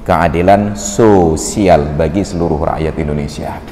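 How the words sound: Sosial is split with a pause into so-sial. Justice is very unlucky for the people. The speaker calls it wrong.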